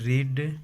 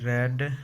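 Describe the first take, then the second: First: The vowel is a long ee sound. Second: The vowel is a short e sound. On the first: It is the base form of the verb. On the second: It is the past form of the verb.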